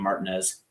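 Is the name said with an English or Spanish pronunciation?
English. The name is said with English pronunciation. The speaker calls it wrong.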